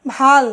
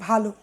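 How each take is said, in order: First: ভাল with the last ল closed, no ও after it; ভাল said short, ending dead on ল; ending clipped, no final o. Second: ভালো with a full ও after the ল; ভালো said open, finishing on ও; ending in o. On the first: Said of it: "কপাল অর্থে". (হসন্ত উচ্চারণে ভাল) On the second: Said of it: "সু অর্থে বলি ভালো". (ওকারান্ত উচ্চারণে ভালো) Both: Shown as a demonstration.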